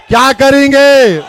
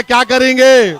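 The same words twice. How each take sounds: First: Louder, pushing the crowd to answer; rallying shout. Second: Said in the usual way. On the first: Real, not acted. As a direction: call it out to the whole crowd, demanding a reply. Rally crowd call and response.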